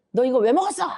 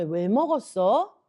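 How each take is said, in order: First: Louder, higher mock scolding; angry scolding. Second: Slow, unaccusing question; gentle questioning. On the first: God imagined scolding Eve for eating the fruit, angry scolding. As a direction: demand it like an angry accuser. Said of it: "이렇게 말씀하시는 게 아니라". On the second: Acted. God asking Eve why she ate it, gentle questioning. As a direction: ask patiently, wanting to hear the reason. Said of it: "네가 왜 그런 행동을 했는지 하나님 물어보시는".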